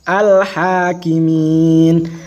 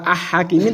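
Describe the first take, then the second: First: The l sound is clearly pronounced. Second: The l sound is silent, absorbed. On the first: The speaker calls it right. "alnya dibaca al-hakimin" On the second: The speaker calls it wrong. "ora ah-hakimin"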